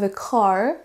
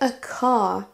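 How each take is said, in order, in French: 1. Le R final est doux mais reste audible. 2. Le R final n'est pas prononcé du tout. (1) "mais bien I have a car pour un accent plutôt américain" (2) "a car pour un accent plutôt britannique"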